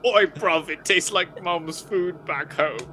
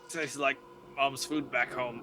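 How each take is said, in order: First: It is said in a put-on British accent. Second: It is said in his normal, non-British accent.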